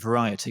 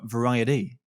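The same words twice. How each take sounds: First: It has a clear T sound in the middle. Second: The T softens into a D sound. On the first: "over in the U K will be variety" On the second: "in the States is more of a variety. Without the T in there, it becomes a D"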